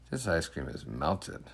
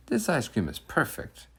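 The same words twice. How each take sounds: First: Disappointed ice cream. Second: High, delighted and satisfied; happy ice cream. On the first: The boy served through a side window, quietly disappointed. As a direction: let the letdown sink in, quietly. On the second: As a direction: savor it, bright with pleasure. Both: Acted.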